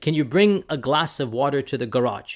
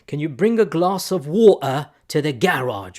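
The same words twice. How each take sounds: First: It is said in an American accent. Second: It is said in a British accent.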